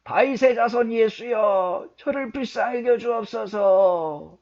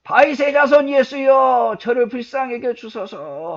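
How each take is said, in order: First: High, loud, drawn-out cry for mercy; crying out at raised pitch over the crowd; shouted plea. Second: Very high, very loud, stretched cry for mercy; full-throated shout. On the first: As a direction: shout it out slowly like a desperate blind beggar. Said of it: "더 높이 소리쳐 외쳤습니다". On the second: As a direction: shout as if your throat would burst. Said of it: "목이 터져라고 외쳤겠죠". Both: Acted.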